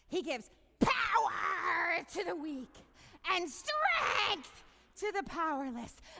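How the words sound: It is said in a weird screaming-cat voice.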